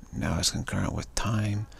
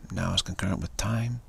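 Both takes have the same delivery.

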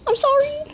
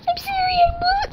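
First: Higher, playful sorry; mock apology. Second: Much higher, cried-out sorry; mock wailing apology. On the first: Apologising to Mom in the video, higher playful sorry. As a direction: say sorry a bit sheepish and high. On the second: Apologising to Mom in the video, high mock wail.

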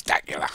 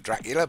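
First: "Dacula" said as DA-cu-la with no R; "Dacula", dropping the R; "Dacula" without any R. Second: "Dracula" said with a clear R after the D; "Dracula", sounding the R; "Dracula" with its full R. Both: Shown as a demonstration. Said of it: "Missed out the R".

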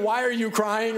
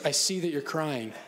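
First: Higher, louder, laughing; mock blunt parent. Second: Calm acknowledgment. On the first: Parent blurting to a crying child, higher and louder. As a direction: blurt the wrong question. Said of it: "that's better than". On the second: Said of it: "attune to emotions". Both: Shown as a demonstration.

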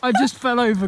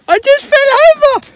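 First: Said in the usual way. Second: Sped-up, much higher and louder, chipmunk-like; a cartoon squeak of a voice; pitched-up clip. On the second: Vlogger replaying his fall in a chipmunk voice. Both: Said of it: "Where's that from, Ben?".

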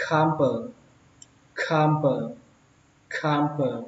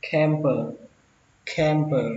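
First: "camper" with open a, like "kham-pơ". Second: "camper" with e vowel, like "kem-pơ". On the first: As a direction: say "camper" the first way, an ah vowel in CAM. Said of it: "cách đầu tiên hơn". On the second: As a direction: say "camper" with an open eh in CAM. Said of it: "Cách thứ hai các bạn đọc âm e". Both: Shown as a demonstration.

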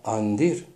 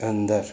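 First: «андир» with «а» first and «и» last; altered pronunciation. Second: «эндар» with a rounded front first vowel, like ö; original pronunciation. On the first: Teacher shows the changed word, Russified «андир». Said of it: "а вторая часть". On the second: Teacher shows the original word, front vowel starting «эндар». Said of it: "это и есть". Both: Shown as a demonstration.

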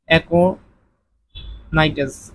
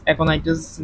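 First: Very slow dictation. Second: Said in the usual way. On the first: Shown as a demonstration. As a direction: stretch aconitase out very slowly. Teacher dictates answer very slowly. (খুব ধীরে aconitase)

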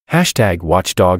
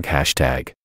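First: Slow, announced "Hashtag watchdog"; announcing hashtag. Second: Soft echoed "hashtag" trailing away. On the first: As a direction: call out "Hashtag" like a headline. Reading out trending hashtags. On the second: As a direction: whisper "hashtag" like an echo. Echo after each hashtag. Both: A narrator's reading.

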